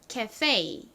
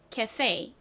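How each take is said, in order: First: It is said with American English pronunciation. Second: It is said with American English pronunciation.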